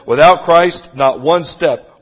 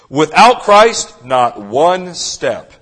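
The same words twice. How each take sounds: First: It is said plainly, without strong emphasis. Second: It is said with strong, deliberate emphasis. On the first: The speaker calls it wrong. "I'm sorry, let me say it again" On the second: The speaker calls it right. "with a little bit, the proper emphasis"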